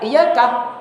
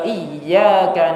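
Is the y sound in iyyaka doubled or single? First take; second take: single; doubled. First: The y sound is short and single. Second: The y sound is held and doubled. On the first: It means worshipping the sun's light, not God. The speaker calls it wrong. "Kalau dibaca iyyaka tidak ada tasdidnya" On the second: It means worship is directed to God. The speaker calls it right. "benar kan tasdidnya"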